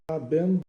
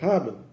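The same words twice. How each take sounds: First: The final e is clearly pronounced. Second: The final e is dropped, not pronounced. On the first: The speaker calls it wrong. "não é haben" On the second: The speaker calls it right. "esse ele, ele é mudo"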